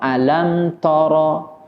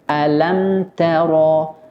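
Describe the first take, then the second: First: The t sound is heavy and thick. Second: The t sound is light and thin. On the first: The speaker calls it wrong. "kemungkinan huruf ta-nya akan dibaca tebal" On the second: The speaker calls it right. "harus disempurnakan sifat tipis atau istifalnya"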